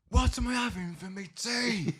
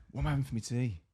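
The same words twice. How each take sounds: First: High, slow mock-angry yell; suddenly angry. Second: Said in the usual way. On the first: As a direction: mimic her flaring up, stretching the words. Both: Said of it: "why is she angry now".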